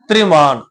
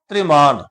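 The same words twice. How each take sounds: No difference in how they are said.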